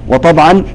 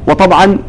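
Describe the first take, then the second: No difference in how they are said.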